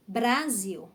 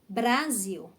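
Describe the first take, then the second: First: The r is said with a quick tongue tap. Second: The r is said with a quick tongue tap.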